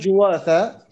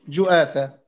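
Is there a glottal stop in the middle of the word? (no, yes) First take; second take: no; yes. First: The middle has a plain w sound, no glottal stop. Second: The middle has a glottal stop before the vowel. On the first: "الأصل جواثة" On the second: "وقد تهمز جؤاثة"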